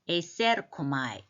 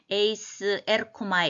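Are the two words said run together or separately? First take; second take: run together; separately. First: The two words are run together smoothly. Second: The two words are said separately. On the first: The speaker calls it right. "읽을 때는 또 그렇게 읽습니다" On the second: The speaker calls it wrong. "이렇게 읽지 말고"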